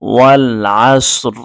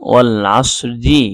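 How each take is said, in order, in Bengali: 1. বাক্যাংশটি একটি হসন্ত ব্যঞ্জনে শেষ হয়। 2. বাক্যাংশটি একটি হ্রস্ব স্বরে শেষ হয়। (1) "এখানে যদি আপনি থেমে যান তাহলে উচ্চারণ হবে ওয়াল আসর" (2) "এখানে আমি পড়েছি ওয়াল আসরি"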